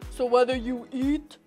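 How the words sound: It is said in a very deep voice.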